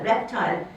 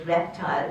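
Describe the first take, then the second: First: "Reptile" with a clear secondary stress on "tile"; "Reptile", rep-TILE with a lighter second beat. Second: Said in the usual way. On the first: Shown as a demonstration. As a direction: lean a little on the second syllable of "Reptile". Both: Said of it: "the second syllable could have a secondary stress".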